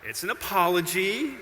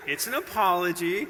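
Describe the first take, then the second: First: Laughing through the words; amused self-correction with a laugh. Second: Apology stressed, with a rising tune; firm insistence on apology; insisting. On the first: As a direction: say it while still laughing. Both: Real, not acted.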